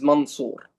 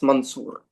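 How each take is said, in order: First: The second syllable sounds like 'sour'. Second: The second syllable sounds like 'soor'. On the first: The speaker calls it right. "my name is Mansour" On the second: The speaker calls it wrong. "not Mansour"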